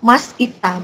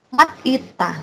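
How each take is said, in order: First: An s sound ends the first part, then a break. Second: A t sound ends the first part, then a break. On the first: "Atau mas ita, bukan kayak gitu" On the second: "bukan mat ita, bukan kayak gitu"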